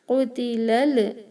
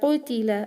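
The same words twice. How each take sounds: First: The final l ends with an echoing bounce. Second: The final l ends smoothly without a bounce. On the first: The speaker calls it wrong. "don't do qalqala on this lam ... This is wrong" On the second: The speaker calls it right. "Pronounce this correctly"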